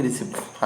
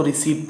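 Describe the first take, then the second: First: रिसिप्ट said "ri-sipt", the P pronounced; sounded P. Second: रिसीप्ट said "ri-seet", with no P sound; silent P. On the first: Teacher shows learners the misreading of receipt, P sounded. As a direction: say रिसिप्ट with short i and an audible P. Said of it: "ना कि रिसिप्ट". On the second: Teacher shows learners how receipt is read, silent P. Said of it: "उसको रिसीप्ट पढ़ते हैं ना कि". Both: Shown as a demonstration.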